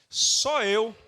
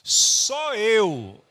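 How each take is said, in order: First: It is said plainly, without extra force. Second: It is said with strong, forceful emphasis.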